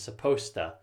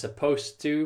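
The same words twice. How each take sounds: First: The words blend together into a shortened form. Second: Each sound of supposed to is said clearly.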